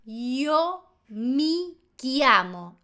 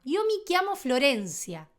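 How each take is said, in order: First: "yo mi chiamo" very slow, word by word; slow Italian pronunciation. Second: "Yo mi chiamo Florencia" run together fluently; Italian at normal pace. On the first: Teacher translating "me llamo", very slow "yo mi chiamo" with hard k. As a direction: say "chiamo" as kya-mo, stretched out. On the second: Teacher introducing herself in Italian, fluent "chiamo" with k. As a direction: say "chiamo" as kya-mo at everyday speed. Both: Shown as a demonstration. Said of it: "Veamos más ejemplos".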